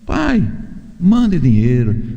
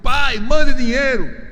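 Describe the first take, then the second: First: It is said in a gentle, pleading tone. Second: It is said in a rude, demanding tone.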